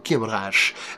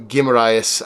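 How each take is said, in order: First: The name is said with a Brazilian accent. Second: The name is said with an English-style accent. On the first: "I pretend like I'm Brazilian" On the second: "however you want to pronounce it"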